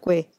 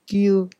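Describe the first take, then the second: First: The syllable has no y-glide before the vowel. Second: The syllable has a y-glide before the vowel. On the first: The speaker calls it wrong. "no Gue" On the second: The speaker calls it right. "en coreano es Gyu"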